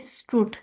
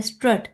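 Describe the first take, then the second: First: स्ट्रूट with a long oo like "stroot"; स्ट्रूट stretched on the long oo sound; long oo vowel. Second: स्ट्रट with the short vowel of luck; स्ट्रट said crisply like "struht". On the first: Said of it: "और second pronunciation क्या है". (स्ट्रूट में लंबी ऊ आवाज़) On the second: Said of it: "लक में जो आवाज़ आ रही है ... वही इसमें आ रही है स्ट्रट". (स्ट्रट में लक वाली छोटी अ आवाज़) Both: Shown as a demonstration.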